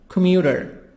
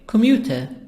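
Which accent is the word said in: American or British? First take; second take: American; British. First: It is said in an American accent. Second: It is said in a British accent.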